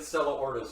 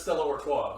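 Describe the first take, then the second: First: "Ortis" deliberately Anglicized, ending in "tis"; playful mispronunciation. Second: "Artois" ending in an open "twah"; correct French-style pronunciation. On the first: Host joking about his favourite wrong name, "Ortis" mispronounced as OR-tis. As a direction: say "Ortis" as OR-tis, sounding the final S. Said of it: "but I like calling it". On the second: Host correcting the beer's name, "Artois" said as ar-TWA. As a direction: say "Artois" as ar-TWA, silent final S. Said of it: "I'm pretty sure it's Stella Artois". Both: Shown as a demonstration.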